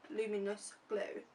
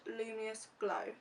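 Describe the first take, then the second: First: "luminous" said carefully in full, "lu-mi-nous"; "luminous" fixed, every syllable clear; corrected word. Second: "luminous" slurred to "lumious", middle syllable dropped; "luminous" said as "lu-mi-ous", missing the n; stumbled word. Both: Real, not acted.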